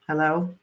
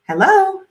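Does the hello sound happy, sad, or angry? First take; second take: sad; happy. First: It is said in a sad tone. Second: It is said in a happy tone.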